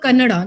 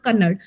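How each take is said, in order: First: The word ends with a final vowel sound. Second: The word ends with a final consonant sound. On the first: The speaker calls it right. "that language is called Kannada" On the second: The speaker calls it wrong. "not Kannad"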